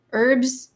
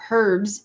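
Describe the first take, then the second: First: "Herbs" said as "erbs", starting on the vowel; herbs, h dropped. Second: "herbs" with a clear h at the front; herbs, h sounded. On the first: Reading a comment on North American speech, "Herbs" as "erbs". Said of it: "Herbs instead of herbs is a North American". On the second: Reading a comment contrasting pronunciations, "herbs" with h sounded. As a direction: say "herbs" as "hurbs", h audible. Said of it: "Herbs instead of herbs". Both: Shown as a demonstration.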